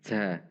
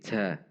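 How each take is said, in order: The two takes are said the same way.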